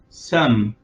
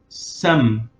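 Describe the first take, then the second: No difference in how they are said.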